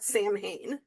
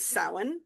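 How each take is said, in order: First: The word is said as written, 'Sam Hain'. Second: The word is said in the accepted way. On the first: The speaker calls it wrong. "not Sam Hain" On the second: The speaker calls it right. "I've known for many, many moons that this was Samhain"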